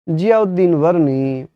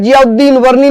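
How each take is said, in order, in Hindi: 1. नाम धीरे और सपाट तरीके से बोला गया है। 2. नाम तेज़ी से और जोश के साथ बोला गया है। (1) "यकीन मानना आपको नींद आने लगेगी" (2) "सर आप बहुत तेज बोलते हो"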